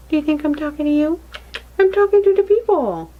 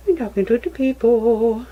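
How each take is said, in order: First: Much higher and louder, mock-indignant; playful teasing. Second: Said in the usual way. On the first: Real, not acted. Mother teasing her daughter that she speaks to the viewers, high and playful.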